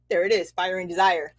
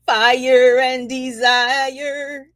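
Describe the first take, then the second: First: Said in the usual way. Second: Slow, loud, drawn-out chant; a song-lyric chant; sung slogan. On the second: Acted. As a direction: croon the catchphrase slowly.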